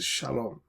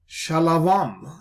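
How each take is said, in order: First: The middle is a single 'o' vowel. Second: The middle is 'ava' with a v sound. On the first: The speaker calls it right. "So that's shalom" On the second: The speaker calls it wrong. "new kind of pronunciations like shalavam"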